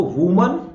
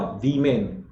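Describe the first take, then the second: First: वुमन as 'voo-man', rising; short rounded 'u' in वुमन; singular pronunciation. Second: वीमेन as 'vee-men', falling; slow long 'ee' in वीमेन; plural pronunciation. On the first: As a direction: lift वुमन at the end. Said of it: "तो एक है तो वुमन". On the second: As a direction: model plural वीमेन clearly. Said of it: "plural को एक ही जगह ई". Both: Shown as a demonstration.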